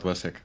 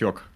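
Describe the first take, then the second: First: The vowel is said as "eh". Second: The vowel is said as "yo". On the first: The speaker calls it wrong. "not Wesek" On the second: The speaker calls it right. "it was Yok"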